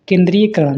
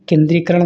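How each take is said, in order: First: केंद्रीयकरण with "iya" before karan; mispronunciation. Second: Said in the usual way. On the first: Shown as a demonstration. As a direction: keep an extra ya in केंद्रीयकरण. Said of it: "केंद्रीयकरण नहीं". (केंद्रीयकरण में 'य' बोलकर) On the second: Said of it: "केंद्रीयकरण होता है".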